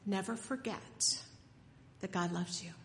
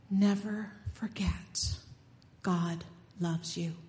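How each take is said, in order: First: Said in the usual way. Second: A hushed, intimate reminder, slow; slow whisper. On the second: Acted. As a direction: slowly whisper never forget as a blessing. Preacher whispers the blessing.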